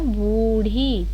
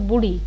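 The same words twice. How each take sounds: First: The first vowel is held long. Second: The first vowel is cut short. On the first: The speaker calls it right. "बड़ा हुआ आएगा" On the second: The speaker calls it wrong. "अगर होता बूढ़ी तो छोटा हुआ होता"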